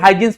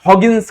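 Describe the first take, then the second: First: The first syllable sounds like 'high'. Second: The first syllable sounds like 'haw'. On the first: This is the way students commonly say the name. "हम लोग हाइजिन्स pronounce करते हैं" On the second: This is the way the name is properly said. "हॉगिन्स करके उनको ये करते हैं, pronounce करते हैं"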